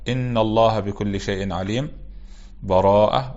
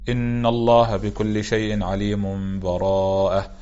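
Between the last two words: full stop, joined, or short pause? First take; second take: full stop; joined. First: There is a full stop with a breath between them. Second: The last two words run together with no break. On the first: "الوجه الثاني الوقف" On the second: "الوجه الأول الوصل"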